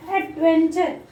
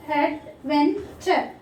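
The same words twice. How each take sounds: First: Said in the usual way. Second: ADVENTURE in three slow pieces, ad, ven, ture; syllable by syllable. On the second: Shown as a demonstration. Teacher dividing the word for children, ADVENTURE split in three. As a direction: pause between each part of ADVENTURE, ad-ven-ture. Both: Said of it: "Three syllables".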